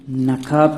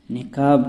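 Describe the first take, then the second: First: نقاب said "naqab", short a after n; common mispronunciation. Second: نقاب said "niqab", short i after n; zer on nun. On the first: Teacher showing what people say, نقاب as "naqab". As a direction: say نقاب with "na" first. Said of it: "یہ لوگوں میں مشہور ہے". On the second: Teacher showing the word for veil, نقاب as "niqab". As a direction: say نقاب with "ni" first. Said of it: "نون کے زیر کے ساتھ". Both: Shown as a demonstration.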